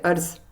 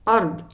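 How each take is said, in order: First: The final consonant is a z-like sound. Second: The final consonant is a d-like sound. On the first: The speaker calls it wrong. "We don't say arz" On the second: The speaker calls it right.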